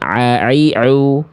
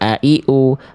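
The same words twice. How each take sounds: First: Each vowel starts with a strained throat sound. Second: Each vowel starts with a light glottal stop. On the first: "kalau ain a i u" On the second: "Kalau hamzah kan cuman a i u"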